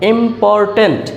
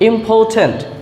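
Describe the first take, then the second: First: The r after the vowel is pronounced. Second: The r after the vowel is silent. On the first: The speaker calls it wrong. "যেটাকে আমরা ইম্পর্টেন্ট বলে জানি" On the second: The speaker calls it right. "এই আর এর উচ্চারণ হবে না"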